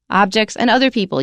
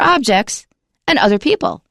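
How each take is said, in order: First: Objects and other people form one phrase. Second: Objects is set apart from other people. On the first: Objects are counted as a kind of people. The speaker calls it wrong. "That doesn't make sense because it's like you're saying that objects are people" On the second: Objects and people are two separate things. The speaker calls it right. "You have to say for objects and other people"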